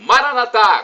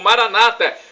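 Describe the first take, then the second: First: The stress falls on the final syllable. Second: The stress falls on the second-to-last syllable. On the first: This is how Catholics say it. "como dizemos nós católicos" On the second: This is how Protestants say it. "como dizem nossos irmãos separados, os protestantes ou evangélicos"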